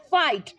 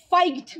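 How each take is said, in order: First: Said in the usual way. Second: Second ফাইট misread with a hard g before the t, like "faig-t"; wrong, g sounded. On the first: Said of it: "আমরা কি ফাইট বলি?". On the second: Shown as a demonstration. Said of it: "বলি তো না". (ফাইট ভুল করে গ-সহ "ফাইগ্ট" উচ্চারণ)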